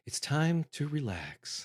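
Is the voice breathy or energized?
breathy. It is said in a soft, breathy voice.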